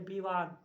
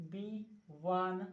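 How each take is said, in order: First: Said in the usual way. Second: विवान said very slowly, starting with a b sound, as bivan; विवान drawn out as bivan; slow, careful pronunciation. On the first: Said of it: "विवान लिखते हैं, लेकिन इसे व है, इसे भ पढ़ रहे हैं". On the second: Shown as a demonstration. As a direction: spell out विवान slowly, bi-vaan. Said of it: "इसे भ पढ़ रहे हैं, ब पढ़ रहे हैं".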